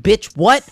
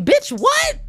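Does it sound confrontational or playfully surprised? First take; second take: confrontational; playfully surprised. First: It sounds confrontational, like there is a problem. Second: It sounds playfully surprised, like friendly disbelief.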